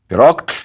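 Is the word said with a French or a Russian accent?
French. It is said with a heavy French accent. "с чудовищным, вероятно, французским акцентом"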